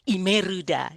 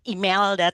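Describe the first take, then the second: First: The name has an R sound and an added vowel. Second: The name has an L sound and no added vowel. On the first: "tapi Imeruda" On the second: "tidak mungkin dibaca dengan Imelda"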